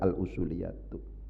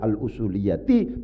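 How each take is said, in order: First: The word ends with a u vowel. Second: The word ends with an i vowel. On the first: The speaker calls it wrong. "bukan al-usuliyatu" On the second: The speaker calls it right. "bacaannya adalah al-usuliyati"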